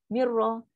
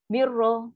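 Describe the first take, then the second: Both takes have the same delivery.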